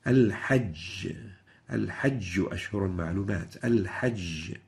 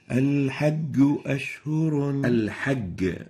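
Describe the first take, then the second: First: Al-Hajj ending in a clear jim; proper jim. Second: Al-Hajj con g dura; Egyptian hard g. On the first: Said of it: "let's hear the proper pronunciation". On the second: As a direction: say Al-Hajj with an English g. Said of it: "a common mistake in the Egypt area". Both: Shown as a demonstration.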